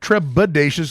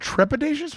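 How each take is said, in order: First: It is said with a b sound, like treble. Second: It is said with a p sound after tre. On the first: "because you're you're in treble" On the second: "with a P?"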